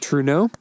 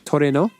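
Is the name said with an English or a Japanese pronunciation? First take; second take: English; Japanese. First: The name is said with English pronunciation. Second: The name is said with Japanese pronunciation. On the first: "In English, I just say Truno" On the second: "is how you say it in Japanese"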